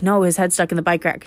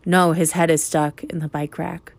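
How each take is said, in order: First: Said in the usual way. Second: Measured, insistent "is stuck in the bike rack"; insistent repeat. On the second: Retold or imitated. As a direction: spell out "head is stuck" deliberately, uncontracted. Kids insist after being disbelieved.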